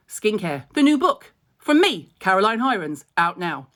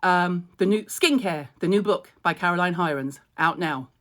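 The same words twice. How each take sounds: First: Hammed-up advert voice, punching me; bright promo read, louder on me. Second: Said in the usual way. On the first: Shown as a demonstration. Reshooting her book promo with more sparkle. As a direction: sell the book like an ad. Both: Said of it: "Can we do it with a different connotation?".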